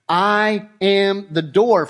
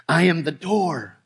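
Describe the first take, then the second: First: Slow, weighty I am the door, each word set apart; emphatic repeat. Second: Said in the usual way. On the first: Shown as a demonstration. Preacher repeating I am the door for emphasis, slow and weighty. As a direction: lean hard on door, unhurried. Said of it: "For emphatic purposes". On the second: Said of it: "he says it again".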